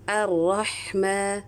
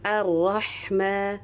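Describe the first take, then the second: First: The h sound is held long with breath. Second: The h sound is held long with breath.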